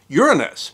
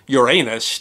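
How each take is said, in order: First: It uses the pronunciation most astronomers prefer. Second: It uses the other, funny-sounding pronunciation. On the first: "Most astronomers prefer to use the pronunciation Uranus" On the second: "another pronunciation, Uranus, to be positively hysterical"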